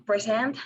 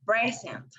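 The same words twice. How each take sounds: First: "present" stressed on SENT; stress on last syllable. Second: "present" stressed on PRE; stress on first syllable. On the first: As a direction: say "present" as pre-SENT, the verb. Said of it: "stressing in last syllable". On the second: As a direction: say "present" as PRE-sent, the noun. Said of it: "the stress in the first". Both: Shown as a demonstration.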